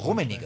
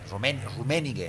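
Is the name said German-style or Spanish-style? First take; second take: German-style; Spanish-style. First: It is German-style, without the stress on an e. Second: It is Spanish-style, with the stress on an e. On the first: The speaker calls it right. "pero es" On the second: The speaker calls it wrong. "Rummenigge en español, Rummenigge con acento en la E"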